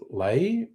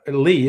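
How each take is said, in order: First: The vowel rhymes with 'day'. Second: The vowel rhymes with 'see'. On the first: This is the speaker's own instinctive reading. "I always want to pronounce it Lay" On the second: This is how most people say it. "Everyone else says it's Lee"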